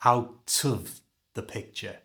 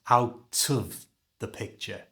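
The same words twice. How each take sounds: First: Of is reduced to schwa, linked to t. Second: The same.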